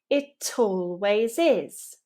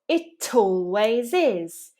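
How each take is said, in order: No difference in how they are said.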